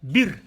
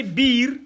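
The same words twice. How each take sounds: First: "Bir" said fast with a short i; short, rapid "Bir"; quick short vowel. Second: "biir" with a drawn-out ii; sustained long vowel in "biir". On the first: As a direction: keep the i of "Bir" brief. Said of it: "Il faut que ça soit rapide". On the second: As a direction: stretch the i of "biir". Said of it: "Voyez la différence". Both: Shown as a demonstration.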